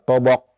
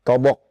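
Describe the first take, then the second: The two takes are said the same way.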